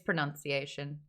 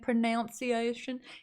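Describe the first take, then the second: First: The second syllable sounds like 'nun'. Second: The second syllable sounds like 'noun'. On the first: The speaker calls it right. "It's pronunciation" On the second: The speaker calls it wrong. "I get so much trouble for saying pronunciation"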